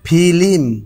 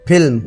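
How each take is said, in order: First: An extra i vowel splits the consonant cluster. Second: The consonant cluster is said without an added vowel. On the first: This is the rural colloquial form. "এই পাশটা একটু গ্রাম্য language" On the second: This is the standard form. "এই পাশটা standard language"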